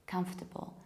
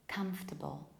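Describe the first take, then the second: No difference in how they are said.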